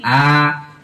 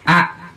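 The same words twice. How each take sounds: First: The vowel is held for two beats. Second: The vowel is held for one short beat. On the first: "dua harokat, dua bunyi ketukan. A, A disambungin" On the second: "Satu harokat itu satu bunyi ketukan"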